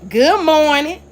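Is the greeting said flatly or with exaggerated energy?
exaggerated energy. It is said with heavy, exaggerated emphasis. The reader adds attitude that was never there. "you reading it"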